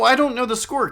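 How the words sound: It sounds curious, inviting an answer. The speaker wants to be told the score. "Could you let me in on it?"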